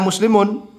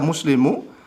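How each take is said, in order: First: The word ends with an added n sound. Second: The word ends on a vowel, no n. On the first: The speaker calls it right. "Seharusnya ini dibaca muslimun" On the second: The speaker calls it wrong. "dibaca muslimu tanpa ditanwin"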